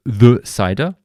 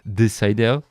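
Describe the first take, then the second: First: Said in the usual way. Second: Put-on the cider with a light French accent; slight French accent. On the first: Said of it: "I really like when he says that". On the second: Imitating friend's slightly French accent saying the name. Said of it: "he has this slightly French, uh, accent".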